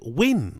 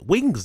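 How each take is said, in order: First: The word ends without the final s sound. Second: The word ends with a clear s sound. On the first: The speaker calls it wrong. "He almost sounded like he said win" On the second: The speaker calls it right. "Wings, you mean?"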